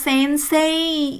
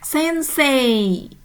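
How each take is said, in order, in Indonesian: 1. Kata ini berakhir dengan bunyi i yang jelas. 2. Kata ini berakhir dengan bunyi e yang dipanjangkan. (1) "ini tidak dibaca sensei ya, i ya" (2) "Tidak dibaca jelas i tetapi menjadi e"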